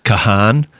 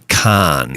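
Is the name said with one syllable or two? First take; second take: two; one. First: The name is said with two syllables. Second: The name is said with one syllable. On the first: The speaker calls it wrong. "I think we blew it and said it's Kahan" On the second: The speaker calls it right. "but it's actually Khan"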